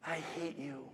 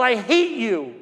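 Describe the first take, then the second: First: Very soft, drained retelling; hushed echo. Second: Raised, higher voice of hateful scolding; imitated angry shouting. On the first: Retold or imitated. Mother fifteen feet ahead of the boy, hushed echo. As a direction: let the insult fall almost to nothing. Same insults echoed from far ahead. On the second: Mother berating her little boy on the street, imitated shouting. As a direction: throw it out like the shouting woman. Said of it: "and she's shouting".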